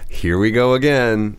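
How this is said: It is said in a flat, unexcited way. Something tiresome is happening again. "it kind of sounds like you're not really excited"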